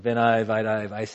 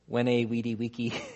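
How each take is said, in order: First: It is pronounced in ecclesiastical Latin style. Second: It is pronounced in academic Latin style. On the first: The speaker calls it right. "in ecclesiastical Latin" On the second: The speaker calls it wrong. "You do it in academic Latin"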